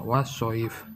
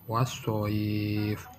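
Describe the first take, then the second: First: The vowel before the final consonant is kept short. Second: The vowel before the final consonant is lengthened. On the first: The speaker calls it wrong. "Bukan wassoif. Itu salah" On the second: The speaker calls it right. "Yang benar adalah dipanjangkan minimal satu alif atau dua harokat"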